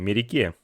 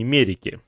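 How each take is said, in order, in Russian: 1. Ударение на последнем слоге. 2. Ударение не на последнем слоге. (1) "у вас ударение на последнюю гласную" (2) "скорее всего, не Мерике"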